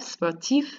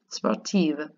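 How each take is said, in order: First: SPORTIF with a clearly audible final F; sounded F. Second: SPORTIVE ending on a voiced V; pronounced V. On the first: French teacher models masculine form, sounding the F in SPORTIF. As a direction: finish SPORTIF on a crisp F. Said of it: "You have to say that F". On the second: French teacher models feminine form, voicing the V in SPORTIVE. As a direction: finish SPORTIVE on a buzzing V. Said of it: "pronouncing the V". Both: Shown as a demonstration.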